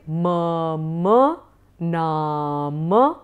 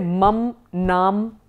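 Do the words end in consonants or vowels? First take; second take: vowels; consonants. First: Both words end with full final vowels. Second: Both words end on bare consonants. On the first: The speaker calls it right. "but you are actually writing mama nama" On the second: The speaker calls it wrong. "I have a few students who say mam nam"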